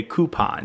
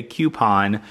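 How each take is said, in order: First: "coupon" said KOO-pon; "coupon" without a y glide, as option two. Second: "coupon" said KYOO-pon; "coupon" with a y glide, as option one. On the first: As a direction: say "coupon" starting like coo. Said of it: "two if you say". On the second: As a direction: say "coupon" starting like cue. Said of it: "One if you say". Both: Shown as a demonstration.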